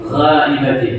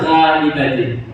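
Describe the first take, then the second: No difference in how they are said.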